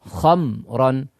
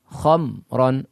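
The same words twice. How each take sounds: The two takes are said the same way.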